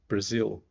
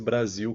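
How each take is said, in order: First: The first vowel is a weak, reduced schwa. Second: The first vowel is a fully open a. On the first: "um A sem vontade" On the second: "com o A bem aberto que a gente tem"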